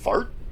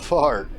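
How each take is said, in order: First: The AR vowel is short and clipped. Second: The AR vowel is long and drawn out. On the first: It sounds sharp, like it cuts the air. "You have the short A R sound as if you are letting the word cut the air" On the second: It sounds airy. "You can also stretch out the A R sound to give it a more airy sound"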